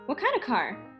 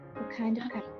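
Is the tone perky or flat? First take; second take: perky; flat. First: It is said in a perky, bright tone. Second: It is said in a flat, subdued tone.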